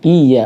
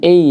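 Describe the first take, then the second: First: The first vowel is a clear i. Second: The first vowel sounds like e. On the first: The speaker calls it right. "i-nya harus jelas, i iya" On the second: The speaker calls it wrong. "bukan e ya"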